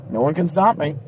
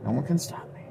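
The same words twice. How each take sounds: First: Said in the usual way. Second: Much softer, almost whispered; hushed echo. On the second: Acted. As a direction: murmur it like a secret. Repeated as quiet echo.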